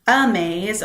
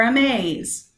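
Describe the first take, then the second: First: "Amaze" as A-maze, first syllable wrongly stressed. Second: "amaze" as a-MAZE, second syllable stressed; light "a", strong MAZE in "amaze". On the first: Teacher offering students a choice, "Amaze" stressed on A. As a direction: hit the A of "Amaze", light second syllable. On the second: Teacher offering students a choice, "amaze" stressed on MAZE. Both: Shown as a demonstration. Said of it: "you don't get to pick".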